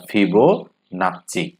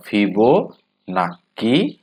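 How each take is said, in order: First: ফিবোনাচি with a ch sound in the last syllable; slow teaching demo of ফিবোনাচি, "fibo-naa-chi"; "chi" pronunciation. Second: ফিবোনাকি with a hard k in the last syllable; slow teaching demo of ফিবোনাকি, "fibo-naa-ki"; "ki" pronunciation. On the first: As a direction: say ফিবোনাচি slowly in parts, ending in "chi". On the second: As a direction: say ফিবোনাকি very slowly, syllable by syllable, ending in "ki". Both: Shown as a demonstration. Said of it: "অনেকেই এর উচ্চারণ করে".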